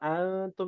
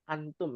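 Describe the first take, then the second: First: The n is hidden with a nasal sound. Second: The n is pronounced clearly and plainly. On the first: "Kalau antum itu hukum tajwidnya. Ya, ikhfa hakiki"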